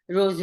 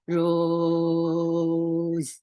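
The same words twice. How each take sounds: First: The word is said short and clipped. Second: The word is stretched into a long sound. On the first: The speaker calls it right. "Continuous stream of short sounds" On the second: The speaker calls it wrong. "you don't go rose like that"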